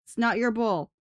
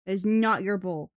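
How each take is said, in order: First: "your" hit hardest in "It's not your bowl"; "your" stressed, firm scolding. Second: "not" hit hardest and lower in "It's not your bowl"; "not" stressed, lower firm scolding. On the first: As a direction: lean on "your" to scold the cat. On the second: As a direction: lean on "not" to scold the cat. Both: Real, not acted.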